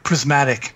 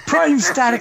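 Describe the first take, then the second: First: The word is said as 'prismatic'. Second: The word is said as 'prime static'. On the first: The speaker calls it right. "he would always mispronounce Prismatic" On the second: The speaker calls it wrong. "He would say Prime Static"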